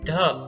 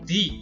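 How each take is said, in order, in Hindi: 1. यह छोटे, कमज़ोर 'uh' स्वर से खत्म होता है। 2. यह लंबे 'ee' स्वर से खत्म होता है। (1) "before all consonant sound" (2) "when the next word begins with a vowel sound"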